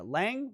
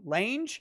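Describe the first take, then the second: First: Lang rhyming with "hang", rising questioningly; questioning "Lang", short vowel as in "hang"; pronounced Lang. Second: Lange rhyming with "range", rising questioningly; questioning "Lange", ending in a j sound; pronounced Lange. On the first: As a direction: try "Lang" with a short a and a hard ng ending. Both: Shown as a demonstration. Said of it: "Not sure how they pronounce it".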